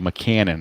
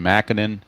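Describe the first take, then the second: First: The middle syllable sounds like 'can'. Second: The middle syllable sounds like 'kin'. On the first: The speaker calls it right. "it's officially McCannon" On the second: The speaker calls it wrong. "I used to want to call him Mackinnon"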